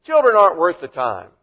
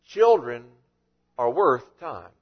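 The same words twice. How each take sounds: First: Put-on dismissive, louder, Children hit hard. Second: Put-on lower, slow, with a pause after Children; gentle correction. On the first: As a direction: brush the children off as worthless. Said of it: "The disciples were saying". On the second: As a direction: correct them gently and firmly. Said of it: "And Jesus said, You're missing the point".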